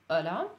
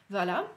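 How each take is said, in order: The two takes are said the same way.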